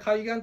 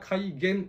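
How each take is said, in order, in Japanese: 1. この語は、くだけた、ぞんざいな読みです。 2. この語は、標準的な、かたい読みです。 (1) "改元と読んでしまいますと" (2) "正しくは改元ですよ"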